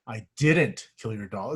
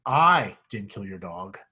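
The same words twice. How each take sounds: First: "didn't" leaned on, slow and deliberate; stress on didn't. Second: "I" punched, slow deliberate reading; stress on I. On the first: Teacher showing the class how emphasis shifts, stress on "didn't". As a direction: put the weight on "didn't", rising. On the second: Teacher showing the class how emphasis shifts, stress on "I". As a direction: hit the word "I", rising, the rest lighter. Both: Shown as a demonstration. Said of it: "depending on what word you emphasize".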